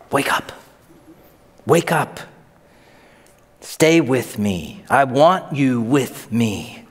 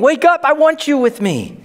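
First: Gentle plea. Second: Urgent call. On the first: Jesus gently calling disciples. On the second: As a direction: call it out high and pressing. Jesus urgently calling disciples. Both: Acted.

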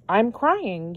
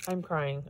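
First: Mildly tearful, with a swoop up on "crying"; touched, a touch of real tears; happy tears. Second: Softer, subdued admission of happy tears; low-key, touched and a little teary; quietly tearful. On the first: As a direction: let the pitch leap on "crying", overwhelmed. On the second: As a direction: say it softly, moved to tears. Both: Real, not acted.

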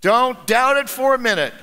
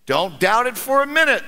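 First: Said in the usual way. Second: Very even tone. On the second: Acted. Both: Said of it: "said the gentleman in a very even tone".

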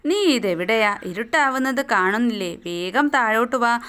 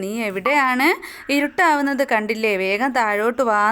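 First: Said in the usual way. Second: A faint quaver of worry, slightly raised on the question; mild voice breaking. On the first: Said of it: "അവളുടെ ശബ്ദം ഇടറി". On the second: Acted. Teacher voices worried Abida calling her kite home, slight tremble. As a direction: lightly act a girl near tears. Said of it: "ശബ്ദം ഇടറിക്കൊണ്ട്".

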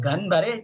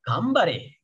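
First: "Ganbare" with a distinct n before b; as written, with n. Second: "Gambare" with a humming m before b; n read as m. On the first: Teacher gives the written form, n kept in "Ganbare". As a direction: keep the n in "Ganbare". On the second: Teacher gives the spoken form, m in "Gambare". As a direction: close the lips on the m in "Gambare". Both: Shown as a demonstration. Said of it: "jadi Gambare".

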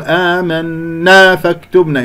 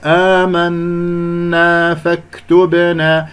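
First: آمنا فاكتبنا with a punch after the held nasal n of آمنا; stressed after the ghunnah. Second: آمنا فاكتبنا chanted slowly, nasal n held and released evenly; even ghunnah. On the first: Teacher imitates a faulty reciter, stressing after the hum. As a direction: hum the n of آمنا, then accent the vowel. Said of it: "بعد ذلك ينبر". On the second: Teacher models the correct recitation, smooth ghunnah. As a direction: hold the hum in آمنا without punching after it. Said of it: "أنت عندك غنة خلاص". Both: Shown as a demonstration.

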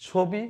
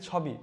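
First: "ছবি" with closed o after ছ; drawn-out "ছবি" with rounded first vowel; spoken o-sound. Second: "ছবি" with open aw after ছ; literal spelling pronunciation. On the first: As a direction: say "ছবি" as chho-bi. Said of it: "কি উচ্চারণ হওয়া উচিত?". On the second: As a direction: say "ছবি" as chhaw-bi. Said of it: "এখানে শুধু ছ". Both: Shown as a demonstration.

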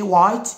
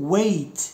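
First: "white" said with the eye vowel, waɪt, as the mistake; wrong way. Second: "wait" said with the ay vowel, weɪt; right way. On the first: Teacher shows learners the wrong reading, eye vowel. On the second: Teacher models "wait" for Moroccan learners, long ay vowel. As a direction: say "wait" so it rhymes with late. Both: Shown as a demonstration. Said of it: "ماشي white".

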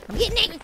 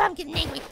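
First: Mild anger in fuller voice; getting angry. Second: Low, soft simmering anger; getting angry. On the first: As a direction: state the rising irritation openly. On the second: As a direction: warn it under your breath. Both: Real, not acted.

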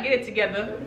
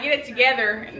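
First: TOGETHER ending in "-uh", r dropped; softer, lower TOGETHER as "togetha"; imitated New York pronunciation. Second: TOGETHER with the final r sounded; our pronunciation. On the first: Mimicking how y'all say it, TOGETHER without the r. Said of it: "Y'all be like". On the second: Shown as a demonstration. Showing how we say it, TOGETHER with its final r. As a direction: say TOGETHER ending in a clear -er. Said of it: "we be like".

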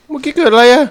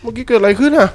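First: High, loud bewildered cry; shocked high question. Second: Startled question. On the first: Gamer stunned by a sudden event, crying out in disbelief. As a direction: demand to know what just happened, alarmed. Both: Real, not acted. Confused after game event.

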